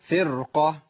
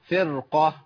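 Both takes have the same delivery.

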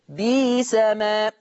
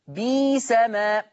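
The two takes are said the same way.

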